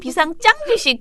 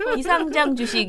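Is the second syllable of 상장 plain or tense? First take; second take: tense; plain. First: The final syllable of 상장 has a tense consonant. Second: The final syllable of 상장 has a plain consonant. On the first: Sounds like shares that receive no award. The speaker calls it wrong. "비상장 주식 계속 그래가지고" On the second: Shares not listed on the exchange. The speaker calls it right. "비상장 주식 이래야 되는데"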